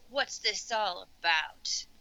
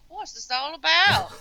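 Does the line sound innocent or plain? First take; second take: plain; innocent. First: It is said in a plain, ordinary way. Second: It is said innocently, like a country bumpkin.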